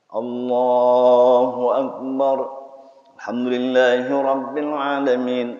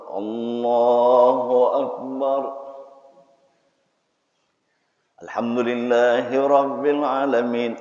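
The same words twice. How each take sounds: First: It runs straight on with no pause. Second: A short silence comes after Allahu Akbar. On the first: The opening verse was not recited. "Kalau setelah takbir enggak ada jeda" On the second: The opening verse was recited silently. "Itu mungkin baca sir gitu"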